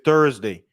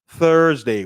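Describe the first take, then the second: First: It begins without an English th sound. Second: It begins with an English th sound. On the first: The speaker calls it wrong. "I used to say Thursday" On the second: The speaker calls it right. "it's Thursday with the th"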